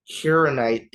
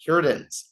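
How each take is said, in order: First: Hironite garbled, halting and unsure; mispronounced name. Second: Hirodins said firmly as HEER-o-dinz; corrected pronunciation. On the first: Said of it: "butchering, uh, those two names". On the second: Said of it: "That's what they're called". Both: Real, not acted.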